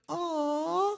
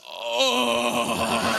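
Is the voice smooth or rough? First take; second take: smooth; rough. First: It is said in a soft, smooth voice. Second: It is said in a coarse, rough voice.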